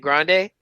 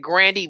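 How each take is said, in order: First: The word ends with an 'ay' sound. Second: The word ends with an 'ee' sound. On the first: The speaker calls it right. "You mean a grande?" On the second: The speaker calls it wrong. "he's saying Grandy"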